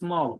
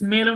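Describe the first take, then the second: First: The vowel sits between the e and a sounds. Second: The vowel sounds like the e in bet. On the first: The speaker calls it right. "মাঝখানে স্মল" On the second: The speaker calls it wrong. "এটা স্মেলও না"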